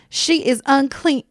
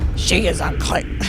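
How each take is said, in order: First: It is said in a normal voice. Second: It is said in a put-on demon voice.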